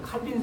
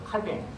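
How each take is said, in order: First: The name ends in an 'in' sound. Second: The name ends in a nasal 'ang' sound. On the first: It is the familiar English-based form. "영어 문화권에서 자라다 보니까 존 칼빈이라고" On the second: It is how the French would say it. "프랑스식의 발음이라면"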